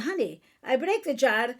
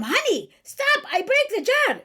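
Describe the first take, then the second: First: Evenly voiced wife in Chaldean accent; calmer appeal. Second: High, loud mock-exasperated wife in Chaldean accent; sharp tone. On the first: Mother modelling a wife telling her husband, calmer appeal. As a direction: imitate telling a husband plainly, without snapping. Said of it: "respond better to calmness than to tone". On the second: Mother acting a wife at her husband, sharp tone. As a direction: imitate snapping at a husband, pitched way up. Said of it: "when you have the tune in your voice".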